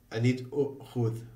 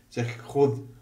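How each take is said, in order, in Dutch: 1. Het woord begint met een korte u-klinker. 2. Het woord begint direct met de kh-klank. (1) "wat volgens de stelregel zou moeten zijn"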